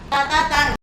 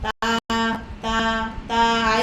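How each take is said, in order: First: The syllables are short and quick. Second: The syllables are drawn out long. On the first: The speaker calls it right. "membaca pendek cepat" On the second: The speaker calls it wrong. "itu panjang tuh"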